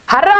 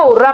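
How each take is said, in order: First: हर्रा with an "a" in the first syllable; हर्रा opening on "har", not "hur"; pronounced harra. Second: हुर्रा with a "u" in the first syllable; हुर्रा opening on "hur", not "har"; pronounced hurra. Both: Shown as a demonstration. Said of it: "कुछ लोग इसको हुर्रा पढ़ते हैं".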